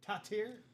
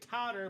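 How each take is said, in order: First: The name is said with a French pronunciation. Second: The name is said with a plain English pronunciation. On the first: The speaker calls it right. "It's Tatir" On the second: The speaker calls it wrong. "I'm gonna say Totter, but it's not Totter"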